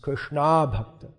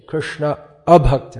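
First: The vowel before 'bhakta' is dropped. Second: The vowel before 'bhakta' is clearly pronounced. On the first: It refers to a devotee of Krishna. The speaker calls it wrong. "If you say Krishna bhakta, then it's the wrong name" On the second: It refers to a non-devotee of Krishna. The speaker calls it right. "You have to be careful how you pronounce that one"

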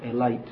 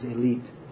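First: It is said with an Indian English pronunciation. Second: It is said with a standard English pronunciation. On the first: "In Indian English it's the elite" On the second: "But actually the pronunciation is elite"

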